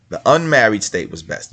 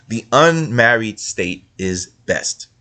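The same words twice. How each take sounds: First: Said in the usual way. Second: "unmarried" drawn out and stressed, whole line slow; "The unmarried state is best" spelled out slowly with weight on "unmarried"; slow emphatic. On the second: Shown as a demonstration. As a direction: lean hard on "unmarried" and slow right down. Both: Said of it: "what's best?".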